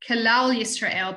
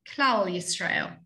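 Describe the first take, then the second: First: A clear vowel follows the first consonant. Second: The first consonant blurs straight into the next. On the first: "the community of kalal Yisrael" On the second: "but we say klal Yisrael"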